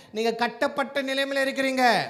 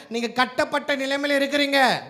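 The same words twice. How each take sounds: The two takes are said the same way.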